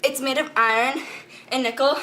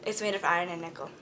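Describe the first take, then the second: First: Said in the usual way. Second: Softer and faster muttered repeat; rushed low-volume retake of the line; quick quiet aside. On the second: Shown as a demonstration. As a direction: toss it off under your breath.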